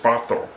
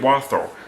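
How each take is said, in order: First: It is said the German way, W as V. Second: It is said with an American pronunciation. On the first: "in German, the uh, W makes a V sound" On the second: "America, we say Walther"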